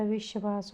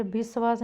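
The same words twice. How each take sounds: First: Said in the usual way. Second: विश्वास said as "bisvaas"; wrong consonants. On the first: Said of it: "विश्वास होता है". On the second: Shown as a demonstration. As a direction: use b and plain s in विश्वास. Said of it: "विश्वास नहीं होता". (विश्वास को "बिस्वास" बोलते हुए)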